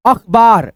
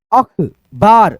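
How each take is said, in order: First: Said in the usual way. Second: अखबार spoken very slowly, each syllable held; drawn-out syllables. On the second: Shown as a demonstration. Teacher slowly sounding out अखबार for students. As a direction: spell out अखबार slowly by ear. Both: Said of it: "सुन लेना अच्छे से ध्वनि".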